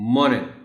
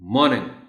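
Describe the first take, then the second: The two takes are said the same way.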